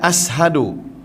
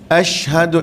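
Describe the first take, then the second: First: The consonant after the first vowel is plain s. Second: The consonant after the first vowel is sh. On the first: The speaker calls it wrong. "jangan ashadu ... bunyi S saja" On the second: The speaker calls it right. "asyhadu S Y"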